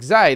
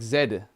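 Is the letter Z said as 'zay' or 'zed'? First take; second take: zay; zed. First: The letter is said as 'zay'. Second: The letter is said as 'zed'. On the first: "That's how they say Zay in American" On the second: "I meant to say Zed"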